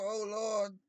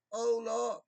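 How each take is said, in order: First: Mock churchgoer. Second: High, loud, hammed-up "Oh, Lord"; mock a showy worshipper praising God; hammed-up churchgoer. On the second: A churchgoer praising God for show, hammed up. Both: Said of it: "go to church and go".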